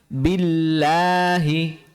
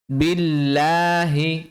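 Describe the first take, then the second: First: The l sound is light and thin. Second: The l sound is light and thin.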